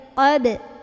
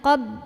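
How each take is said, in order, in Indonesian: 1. Huruf b terakhir dilepas dengan pantulan. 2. Huruf b terakhir tetap tertahan tanpa pantulan. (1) "tapi qab" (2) "jangan qab"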